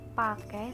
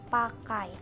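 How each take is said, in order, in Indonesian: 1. Vokal akhirnya adalah bunyi e biasa. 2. Vokal akhirnya adalah diftong ai. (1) "Pelafalan diftong ai sebagai E"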